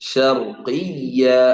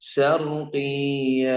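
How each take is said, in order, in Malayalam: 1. ഇരട്ട yy വ്യക്തമായി അമർത്തിയതാണ്. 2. ഇരട്ട yy ദുർബലവും വ്യക്തമല്ലാത്തതുമാണ്.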